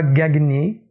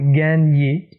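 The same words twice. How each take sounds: First: The g and n are sounded separately. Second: The gn is one blended 'ny' sound. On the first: The speaker calls it wrong. "et pas gagner" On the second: The speaker calls it right. "c'est comme ça qu'il se prononce"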